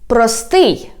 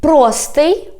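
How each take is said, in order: First: "простий" stressed on СТИЙ, falling; stress on last syllable. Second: "простий" stressed on ПРО, rising end; stress on first syllable. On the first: Teacher giving the second variant, "простий" stressed on СТИЙ. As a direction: hit the end of "простий". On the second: Teacher giving the first variant, "простий" stressed on ПРО. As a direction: hit the start of "простий". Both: Shown as a demonstration. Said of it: "when we change the stress".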